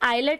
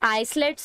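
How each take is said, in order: First: No s sound is said before the l. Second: An s sound is said before the l. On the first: The speaker calls it right. "यहाँ पे एस silent है" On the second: The speaker calls it wrong. "आइसलेट्स नहीं बोल सकते आप इसको"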